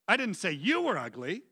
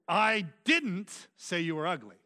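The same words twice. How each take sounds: First: The stress falls on the word you. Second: The stress falls on the word didn't. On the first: It was said about someone else. "I said your mama was ugly" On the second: It is an emphatic denial. "which is just an emphatic form of that"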